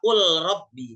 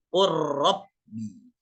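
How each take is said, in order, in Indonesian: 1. Huruf L dibaca sebelum R. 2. L melebur ke dalam R yang bertasydid. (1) "Jangan lagi dibaca qul rabbi" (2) "tapi ro-nya langsung bertasydid"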